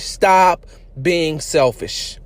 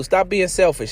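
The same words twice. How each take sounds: First: "Stop being selfish" dragged out slowly, every word weighted; slow scolding repeat; slow emphatic repeat. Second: Said in the usual way. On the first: Shown as a demonstration. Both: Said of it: "repeated slower".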